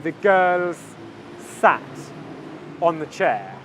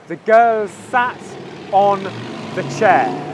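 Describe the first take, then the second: First: The words are separate, with two S sounds. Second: The words are linked, with one S sound. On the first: "If I was to say these two words separately" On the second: "at native speed in English, I say it like this"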